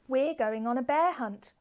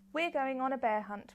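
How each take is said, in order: First: It is read with lively, varied expression. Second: It is read flat, in a monotone. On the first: The speaker calls it right. "I am really using expression in my voice for the different sentences" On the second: The speaker calls it wrong. "kind of more monotone, how you might read to yourself"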